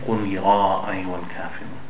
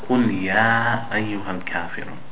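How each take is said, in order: First: The 'ya' is thick, with the mouth opened wide. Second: The 'ya' is thin, with the jaw mostly closed. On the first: The speaker calls it wrong. "We don't say" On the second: The speaker calls it right. "the ya is a letter that is a thin letter"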